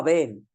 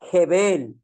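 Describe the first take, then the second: First: The word starts directly with a vowel sound. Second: The word starts with an audible h sound. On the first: This is the transliterated form. The speaker calls it wrong. "no Abel" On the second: This is the original Hebrew form. The speaker calls it right. "La H suena en hebreo"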